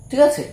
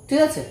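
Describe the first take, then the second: Both takes have the same delivery.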